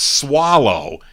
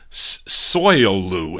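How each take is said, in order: First: The name sounds like 'swallow'. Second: The name sounds like 'soy-loo'. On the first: The speaker calls it right. "they're telling me it's swallow" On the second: The speaker calls it wrong. "So I said Soilu"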